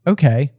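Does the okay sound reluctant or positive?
reluctant. It sounds reluctant and unwilling.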